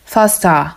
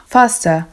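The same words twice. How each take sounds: First: "faster" ending in a broad a; "faster" as "fasta", exaggerated final a; Cockney faster. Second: Said in the usual way. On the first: Shown as a demonstration. Teacher demonstrates Cockney "faster" for students. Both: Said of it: "musi być takie a".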